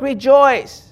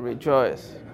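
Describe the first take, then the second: First: The word is said brightly, with joy. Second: The word is said flatly, without joy. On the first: The speaker truly rejoices. The speaker calls it right. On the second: The speaker is not really rejoicing. The speaker calls it wrong.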